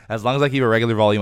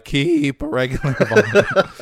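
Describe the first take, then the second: First: Said in the usual way. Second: High, loud, cracking voice; strained and squeaky, voice going; losing the voice. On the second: Shown as a demonstration. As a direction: let the voice break upward as it gets louder. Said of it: "what's going on with my voice. I'm losing it".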